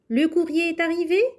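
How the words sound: The voice rises at the end. It asks whether the mail has arrived. "en effectuant une hausse de la voix"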